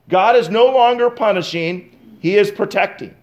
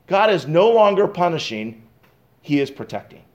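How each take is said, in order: First: "no" hit a bit harder in a firmer restatement; stress on NO. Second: Said in the usual way. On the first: Acted. Preacher repeats the point to the congregation, stressing "no". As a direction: lean on "no" to drive the point home.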